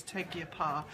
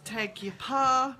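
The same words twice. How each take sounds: First: Said in the usual way. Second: Teg Your Pa said slowly, each syllable spelled out; backwards title. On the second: Shown as a demonstration. Host showing viewers her book title said backwards, slowly. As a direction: say Teg Your Pa slow and deliberate, as a reversed Get Happy. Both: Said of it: "I now know how to say it backwards".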